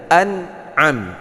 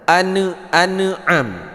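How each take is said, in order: First: The nun sound is held smoothly without echo. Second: The nun sound is bounced with an echo. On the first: The speaker calls it right. "Jangan dipantulkan bunyi huruf nun ya, tapi dibaca an'am" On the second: The speaker calls it wrong. "Ini banyak yang terjadi kesalahan, orang membaca"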